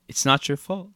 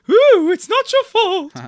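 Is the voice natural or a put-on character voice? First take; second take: natural; put-on. First: It is said in the speaker's ordinary voice. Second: It is said in a put-on character voice. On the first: The speaker calls it wrong. "But you're just saying it in your voice" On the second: The speaker calls it right. "Now say it's not your fault like that"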